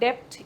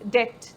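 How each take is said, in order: First: A p sound is heard before the final t. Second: No p sound is heard before the final t. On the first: The speaker calls it wrong. "It's not डेप्ट" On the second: The speaker calls it right. "It's डेट"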